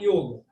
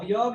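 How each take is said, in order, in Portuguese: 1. A vogal o é fechada. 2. A vogal o é aberta. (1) "Em sânscrito o O é sempre fechado" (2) "yoga em português"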